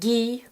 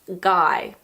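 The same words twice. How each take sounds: First: The name is said with a French pronunciation. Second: The name is said with an English pronunciation. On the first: "in French it's pronounced Guy" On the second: "in English we pronounce it Guy"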